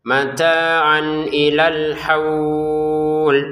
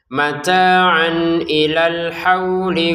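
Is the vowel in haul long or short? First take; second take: long; short. First: The vowel in haul is held for six counts. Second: The vowel in haul is short, not lengthened. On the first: The reading stops here. "haulnya kita baca enam harokat karena berhenti" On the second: The reading continues into the next word. "Kalau disambung menjadi tidak panjang sama sekali"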